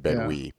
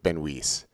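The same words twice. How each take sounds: First: The name is said without an S sound. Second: The name is said with an S sound. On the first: The speaker calls it wrong. "I was leaving out the S. I was saying Benwee" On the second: The speaker calls it right. "but Benwee"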